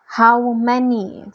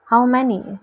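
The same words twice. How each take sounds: First: Slow, drawn-out demand from a general. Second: Said in the usual way. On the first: A narrator's reading. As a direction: demand it slowly, weighing each word. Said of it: "the general demanded". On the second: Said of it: "Luke asked".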